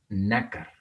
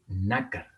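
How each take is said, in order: Both takes have the same delivery.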